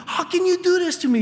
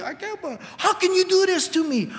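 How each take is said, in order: First: High, loud and faster wounded repeat; fast hurt accusation. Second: Hurt accusation. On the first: A spouse repeating the accusation to their partner, fast high outcry. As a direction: press the accusation harder and quicker. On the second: A spouse accusing their partner in an argument, high hurt outcry. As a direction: play the betrayed spouse mid-argument. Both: Retold or imitated. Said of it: "you've been in those arguments".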